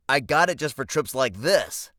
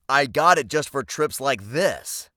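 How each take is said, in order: First: The line is spoken at a quicker pace. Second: The line is spoken at a slower pace.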